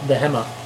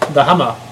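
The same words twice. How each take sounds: First: It is said with an English accent. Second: It is said with a German accent.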